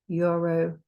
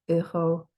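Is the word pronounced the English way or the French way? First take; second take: English; French. First: It is pronounced with English sounds. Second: It is pronounced with French sounds. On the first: "say the English" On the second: "then the French"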